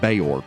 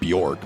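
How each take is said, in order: First: The name begins with separate 'bee-ork' sounds. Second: The name begins with a single 'byork' sound. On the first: The speaker calls it right. "but it's [name]" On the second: The speaker calls it wrong. "I keep mispronouncing it. It just looks so easy to say Bjork"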